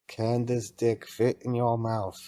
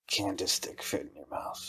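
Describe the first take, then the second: First: It is said loudly and clearly. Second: It is said quietly, under the breath.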